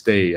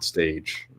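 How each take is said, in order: First: The name ends in a vowel sound. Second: The name ends in a 'j' sound. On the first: "I think it's pronounced Stay" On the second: "I always said Stage"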